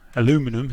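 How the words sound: It has four syllables, American style.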